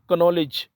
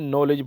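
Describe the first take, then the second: First: The k at the start is pronounced. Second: The k at the start is silent. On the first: The speaker calls it wrong. "कनॉलेज नहीं बोलना" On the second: The speaker calls it right. "बल्कि नॉलेज बोलना है"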